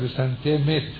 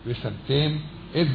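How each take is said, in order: First: The words run together and the glottal stop disappears. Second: The two words are kept apart with a glottal stop. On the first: The speaker calls it wrong. "אז מהר, אז האלף נבלעה" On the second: The speaker calls it right. "אם אתה לא מבטא אותה יפה, תבלע"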